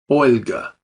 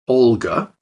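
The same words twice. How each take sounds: First: The L is soft, with the tongue raised. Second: The L is plain and hard. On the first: The speaker calls it right. "but Olga" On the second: The speaker calls it wrong. "So not Olga"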